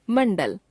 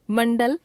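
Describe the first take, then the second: First: Mandal with the pitch falling at the end; falling tune. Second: Mandal with the pitch rising at the end; rising tune. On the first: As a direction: close off Mandal with a fall. Word list, second of two takes. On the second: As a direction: say Mandal as if listing, unfinished. Word list, first of two takes. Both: Shown as a demonstration.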